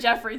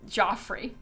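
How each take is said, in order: First: The first vowel is an 'e' as in 'bed'. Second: The first vowel is an 'o' as in 'off'. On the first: "he's always been Jeffrey to me" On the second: "it can be pronounced Joffrey"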